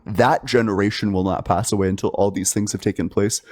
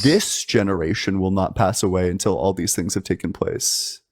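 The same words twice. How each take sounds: First: "that" set apart and emphasized; stress on that. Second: "this" set apart and emphasized; stress on this. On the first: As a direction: lean on the word "that" to contrast it. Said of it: "it would have said". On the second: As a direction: lean on the word "this" as the correction. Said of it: "But what it said is". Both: Shown as a demonstration.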